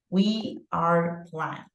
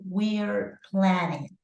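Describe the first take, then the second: First: The two words are said separately in full. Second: The two words are joined into one contracted syllable. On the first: The speaker calls it wrong. "do it in the full form" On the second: The speaker calls it right. "she's doing the contraction"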